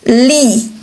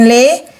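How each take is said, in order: First: The vowel is a close 'ee' sound. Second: The vowel is an open 'eh' sound. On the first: The speaker calls it right. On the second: The speaker calls it wrong. "jangan le"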